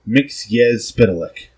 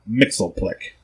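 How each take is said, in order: First: The name is said with more syllables. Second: The name is said with fewer syllables. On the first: The speaker calls it right. "the name is pronounced correctly in this episode" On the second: The speaker calls it wrong. "It's not Mixelplick, as the Super Friends cartoon will try to tell us"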